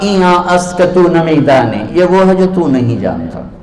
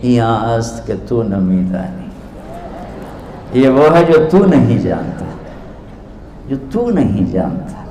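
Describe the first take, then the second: First: Arrogant reply. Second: Softer, gentle innocent answer; innocent reply. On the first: Scholar answers the rough-looking stranger with mild arrogance. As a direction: look down on the questioner, only a touch of pride. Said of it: "बड़े तकब्बुर से कहा". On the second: Mystic gently answers the proud scholar, softly innocent. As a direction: hand the words back quietly and sweetly. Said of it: "बड़ी मासूमियत से बोले". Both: Retold or imitated.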